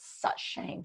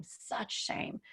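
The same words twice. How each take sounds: First: Said in the usual way. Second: Real whispered such shame, trailing away. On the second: Real, not acted. Repeating the shame, then whispering.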